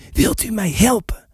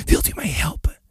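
First: Hushed but more voiced entreaty; insistent repeated plea. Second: Soft whispered plea. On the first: Stranger repeating his plea to the silent squire, hushed insistence. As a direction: press the question, still keeping it down. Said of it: "herhaalde hij". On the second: Stranger asking the silent squire for help, whispering. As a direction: ask it in a hushed, breath-only voice. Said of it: "nog steeds fluisterend". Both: A narrator's reading.

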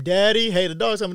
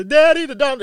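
First: Imitating a little girl's alarm. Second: High, loud panicked cry for Daddy; a little girl screaming in terror; much higher and louder mock scream for help; imitated terrified child. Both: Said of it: "you could hear this little girl's terror in her voice".

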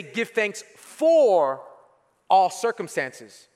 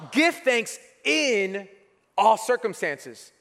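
First: "for" stretched slowly as the wrong word; stress on FOR. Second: "in" drawn out slowly and leaned on; slow down and hit the word "in"; stress on IN. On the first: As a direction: lean on "for" to show the mistake. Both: Shown as a demonstration. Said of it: "Notice how it doesn't say".

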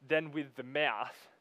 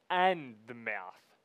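First: Said in the usual way. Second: "and" drawn out slowly and punched; stress on AND. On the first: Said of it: "it doesn't then go on to say". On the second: Shown as a demonstration. Preacher correcting a misreading of the verse, heavy stress on "and". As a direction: hit the word "and", stretching it. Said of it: "No, it says the middle".

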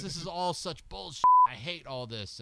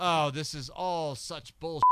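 First: Put-on a second go at the Australian accent, higher on the first line; imitating an Australian rocker sneering. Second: Mock Australian sneer at the music scene; Australian accent. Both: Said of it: "Can't do an Australian accent".

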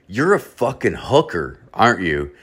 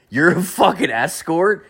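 First: Said in the usual way. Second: "You're a fucking escort?" pitched much higher with a rising, knowing question tune; mock-knowing question. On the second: Guy to the woman on his couch, knowing rising question. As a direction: lean on "fucking" and lift the whole line up into a sly question. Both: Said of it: "I said it the right way this time".

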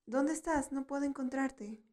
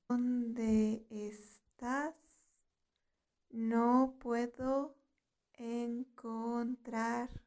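First: Said in the usual way. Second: Very slow, with "¿Dónde estás? No puedo encontrarte." broken into small pieces; slow teaching repetition. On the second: Shown as a demonstration. Teacher has learners repeat "¿Dónde estás? No puedo encontrarte." after her, very slowly. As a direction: draw out each word of "¿Dónde estás? No puedo encontrarte." with pauses.

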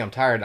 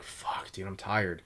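First: Said in the usual way. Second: Drained private grumbling under his breath; tired mutter. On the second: Retold or imitated. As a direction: mumble it half asleep, mock exhausted. Exhausted new guy mutters.

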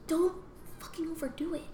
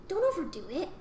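First: Whispered warning. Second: Said in the usual way. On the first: Real, not acted. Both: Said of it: "advice on hitting kids".

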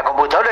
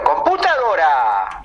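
First: Said in the usual way. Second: "Computadora" stretched slowly with a high swoop; silly pronunciation. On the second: Shown as a demonstration. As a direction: draw out "Computadora", pitch leaping up. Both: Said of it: "a la computadora le digo".

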